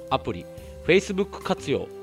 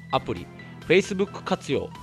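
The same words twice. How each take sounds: The two takes are said the same way.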